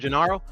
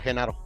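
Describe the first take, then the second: First: The name begins with a hard G sound. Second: The name begins with a Spanish J sound. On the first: This is the English way of saying it. "I said it with the with the G sound" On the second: This is the Spanish way of saying it. "in Spanish it's uh"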